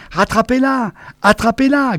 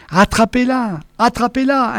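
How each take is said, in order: First: High yelping command; high shrill-free yapping order. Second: High pleading order; high desperate plea; imploring. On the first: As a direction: yelp it in a panic. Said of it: "glapissait Namur". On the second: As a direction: beg them to catch it. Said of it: "implorait Némur". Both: A narrator's reading.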